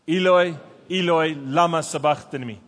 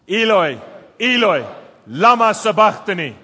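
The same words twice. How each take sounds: First: It is said at a normal speaking volume. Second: It is said in a loud voice.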